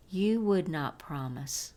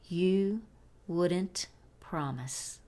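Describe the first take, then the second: First: Said in the usual way. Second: "wouldn't" run together as "WOOD-ent", said slowly; contracted form. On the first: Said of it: "entre las palabras would y not". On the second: Shown as a demonstration. Teacher offers the contracted alternative to learners, slow careful model. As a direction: separate "you", "wouldn't" and "promise", very slow. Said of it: "formar una contracción negativa".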